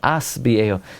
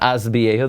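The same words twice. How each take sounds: First: The first word ends with an s sound. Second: The first word ends with a z sound. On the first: The speaker calls it right. "you need to be matis" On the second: The speaker calls it wrong. "people make a zayin"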